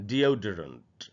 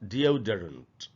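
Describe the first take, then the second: The two takes are said the same way.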